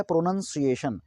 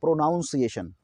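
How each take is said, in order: First: "प्रोनाउंसिएशन" with a short 'nun' in the middle; correct pronunciation. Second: "प्रोनाउंसिएशन" with 'noun' in the middle; mispronunciation. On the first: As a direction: say "प्रोनाउंसिएशन" as pro-nun-see-AY-shun. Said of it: "ना कि". ("प्रोनाउंसिएशन" में 'नाउन' नहीं, छोटा 'नन' बोलें) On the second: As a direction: say "प्रोनाउंसिएशन" wrongly as pro-NOUN-see-ay-shun. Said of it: "ये प्रोनाउंसिएशन नहीं है". ("प्रोनाउंसिएशन" के बीच में 'नाउन' बोलें) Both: Shown as a demonstration.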